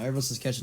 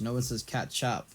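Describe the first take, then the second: First: "ketchup" with an unstressed, swallowed second syllable; everyday ketchup. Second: "catchup" as CAT-chop, softer; catchup with open vowels. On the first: Stating what everyone says, "ketchup" as KETCH-up. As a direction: say "ketchup" as KETCH-up, end reduced. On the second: Rejecting the odd form, "catchup" as CAT-chop. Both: Shown as a demonstration.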